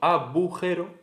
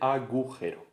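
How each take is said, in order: First: The middle consonant is a b sound. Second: The middle consonant is a g sound. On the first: "cuando el sonido G se pronuncia como B" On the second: "en vez de"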